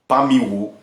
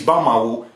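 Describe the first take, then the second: First: The second vowel sounds like 'i'. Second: The second vowel sounds like 'a'. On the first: It is the original form that carries meaning. The speaker calls it right. "its original pronunciation" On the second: It is a corrupted form with no meaning. The speaker calls it wrong. "the corrupted word"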